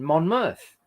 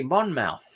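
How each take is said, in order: First: "Monmouth" ending in a short "muth"; "Monmouth" said slowly, MON-muth; English pronunciation. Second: "Monmouth" ending in "mouth" like the body part; "Monmouth" said MON-mouth with a full "ow"; spelling pronunciation. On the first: Explaining English place names to viewers, MON-muth. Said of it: "it's become to be". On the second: Showing chat the written form read aloud, MON-mouth. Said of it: "when it should be". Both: Shown as a demonstration.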